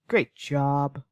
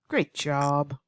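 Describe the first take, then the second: First: It is said in a sarcastic, negative tone. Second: The same.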